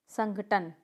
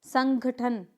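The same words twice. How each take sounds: First: संगठन said sanghaTan, plain T at the end; corrected pronunciation. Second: संगठन said slowly as sanghaTHan; wrong pronunciation. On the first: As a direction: model संगठन with unaspirated T. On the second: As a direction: demonstrate संगठन with heavy aspiration, slowly. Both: Shown as a demonstration. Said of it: "नहीं".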